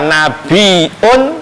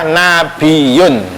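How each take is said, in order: First: A glottal stop comes before the ending. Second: A y sound comes before the ending. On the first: "huwa bil hamzi wa tarkihi" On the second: "Kalau yang umum ya pakai ya"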